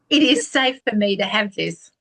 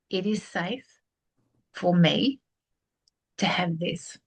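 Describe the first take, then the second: First: It is said fast. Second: It is said very slowly.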